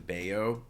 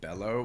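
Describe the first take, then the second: First: The middle consonant is a Y sound. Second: The middle consonant is an L sound. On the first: The speaker calls it right. "the double L in Spanish is uh, is a Y" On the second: The speaker calls it wrong. "which I feel is incorrect"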